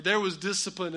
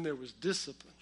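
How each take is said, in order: First: Said in the usual way. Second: "discipline" said lower, with knowing weight; loaded emphasis on "discipline". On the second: Shown as a demonstration. Contrasts ordinary with severe discipline.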